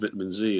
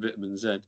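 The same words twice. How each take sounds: First: The letter is said the American way, zee. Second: The letter is said the British way, zed.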